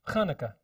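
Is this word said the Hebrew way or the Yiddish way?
Yiddish. It is said with switched, Yiddish syllable stress. The speaker calls it wrong.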